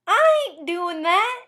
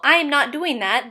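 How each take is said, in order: First: High, slow Southern twang; sassy Southern refusal, drawn out; Southern accent. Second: Said in the usual way. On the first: Shown as a demonstration. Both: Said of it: "then becomes".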